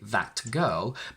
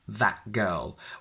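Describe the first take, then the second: First: The t in 'that' is fully pronounced. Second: The t in 'that' is a glottal stop. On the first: The speaker calls it wrong. "we can't say that girl" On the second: The speaker calls it right. "I am blocking the air after the a from that, and I swallow the t and transform it into this glottal stop"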